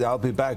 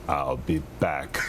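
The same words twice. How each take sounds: First: It is said in his normal speaking voice. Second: It is said in his Terminator movie voice.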